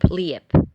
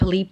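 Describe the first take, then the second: First: The vowel is a gliding ije. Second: The vowel is a plain i.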